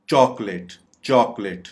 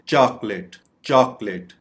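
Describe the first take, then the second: First: "चॉकलेट" said CHAWK-let; rounded vowel variant. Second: "चॉकलेट" said CHAAK-let; open vowel variant. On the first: Teacher drilling the other correct way, "चॉकलेट" as CHAWK-let. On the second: Teacher drilling one correct way, "चॉकलेट" as CHAAK-let. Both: Shown as a demonstration. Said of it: "correct pronunciation पता होनी चाहिए".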